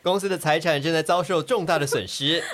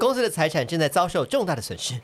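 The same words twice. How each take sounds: First: It is said in a flat, robotic tone. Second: It is said in a natural, expressive tone.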